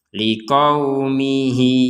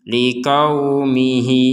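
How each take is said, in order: The two takes are said the same way.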